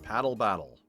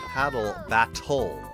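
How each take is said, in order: First: The T sounds are soft and flapped. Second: The T sounds are crisp and fully released.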